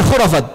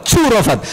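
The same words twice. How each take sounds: First: "khurafat" with a throaty initial "kh"; standard pronunciation. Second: "curafat" with "ch" replacing the kh; old-spelling reading. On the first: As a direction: say "khurafat" starting with the Arabic kh. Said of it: "Bukan khurafat". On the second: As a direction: stress a joking "choo" opening in "curafat". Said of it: "ejaan zaman dulu". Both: Shown as a demonstration.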